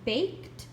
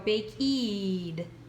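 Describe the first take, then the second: First: The word is said as one syllable. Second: The word is said with an extra syllable. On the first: The speaker calls it right. "Look at this word" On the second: The speaker calls it wrong. "If I kept both E's, we'd go bakeed"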